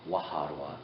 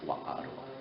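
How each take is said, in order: First: The h sound in the middle is pronounced. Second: The h sound in the middle is dropped. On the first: "instead of saying waharua" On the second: "other uh, tribes will say wa'arua"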